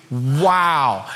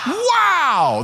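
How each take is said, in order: First: Low, unimpressed wow; unenthused wow. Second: High, drawn-out, excited wow; enthusiastic wow. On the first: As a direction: say wow as if rolling your eyes. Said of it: "like you're not rolling your eyes". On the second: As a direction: say wow with real enthusiasm, pitched way up. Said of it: "like, with some enthusiasm". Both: Shown as a demonstration.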